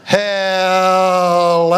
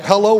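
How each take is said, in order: First: Hello with the first part stretched way too long, laughing; drawn-out foreign hello. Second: Said in the usual way. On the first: Retold or imitated. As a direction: imitate a long, warbling foreign Hello, giggling through it. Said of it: "too long in that first part there". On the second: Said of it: "too long in that first part".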